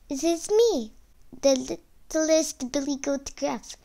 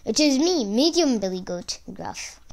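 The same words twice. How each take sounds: First: Small, high-pitched goat voice; high, timid little goat. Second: Slightly lower goat voice. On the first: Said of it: "replied in a high, timid voice". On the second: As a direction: answer as the medium goat, only a little raised. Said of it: "replied in a slightly lower voice". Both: A narrator's reading.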